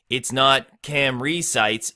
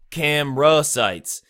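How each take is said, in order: First: "Camry" said as two syllables, like the car; wrong version, Camry. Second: Camera said with three clear syllables, "cam-er-a"; camera sites. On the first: Rap teacher showing the wrong rhyme word, contrasting pronunciation. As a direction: demonstrate the clipped wrong "Camry". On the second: Rap teacher showing students the right word, careful pronunciation. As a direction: spell out "camera" slowly for the rhyme. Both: Shown as a demonstration.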